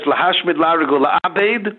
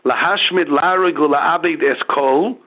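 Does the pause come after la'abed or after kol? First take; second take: after la'abed; after kol. First: The pause comes after la'abed. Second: The pause comes after kol.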